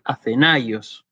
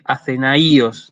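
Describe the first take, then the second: First: "Athenaios" slowly, stressed on the A, a-the-NÁI-os; correct stress demo. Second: "Athenaios" wrongly stressed on the I, a-the-na-Í-os; wrong stress demo. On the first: Teacher corrects to what one does say, correct stress demo. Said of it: "dice Athenaios". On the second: Teacher shows what one does not say, wrong stress demo. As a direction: break the diphthong, hitting the I in "Athenaios". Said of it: "pero uno no dice Athenaios". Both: Shown as a demonstration.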